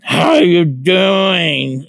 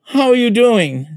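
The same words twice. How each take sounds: First: Slow, high, loud drawn-out "How are you doing?"; exaggerated slow greeting. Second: Quoting a greeting. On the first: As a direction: ham up the flamboyant greeting. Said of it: "it was the way he was saying it". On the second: Retold or imitated. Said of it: "He said".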